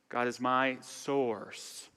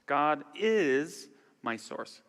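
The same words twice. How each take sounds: First: The stress falls on the word source. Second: The stress falls on the word is. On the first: "emphasize each word" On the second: "emphasize each word"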